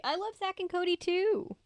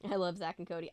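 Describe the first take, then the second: First: Squeaky high-pitched cutesy voice; high silly voice. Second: Said in the usual way. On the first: Shown as a demonstration. Repeats in silly voice.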